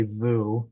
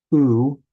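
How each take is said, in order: First: Vu said with a v before the oo, as the mistake; wrong way vu. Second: U said as a pure, loud oo with no v before it; clear vowel u. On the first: Teacher showing students the mistaken reading, lightly. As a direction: show the wrong vu, v plus oo. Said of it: "You don't say vu". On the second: Teacher sounding out the shurik vowel, firm and clear. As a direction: sound out u cleanly, a bare oo. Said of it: "Sometimes it'll appear as a shurik". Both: Shown as a demonstration.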